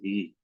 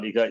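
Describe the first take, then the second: First: The h is followed by an i vowel. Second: The h is followed by an a vowel. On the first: The speaker calls it right. "this is e" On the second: The speaker calls it wrong. "this is not iha"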